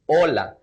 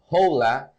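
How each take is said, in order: First: The H at the start is silent. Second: The H at the start is sounded. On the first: The speaker calls it right. "instead we pronounce it as hola" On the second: The speaker calls it wrong. "we write it as hola"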